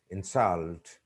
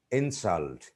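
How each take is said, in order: First: "insult" with stress at the end; stress on second syllable. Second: "insult" with stress up front; stress on first syllable. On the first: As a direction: INSULT as the verb, in-SULT. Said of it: "second syllable". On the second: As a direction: INSULT as the noun, IN-sult. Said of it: "the stress is on the first syllable". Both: Shown as a demonstration.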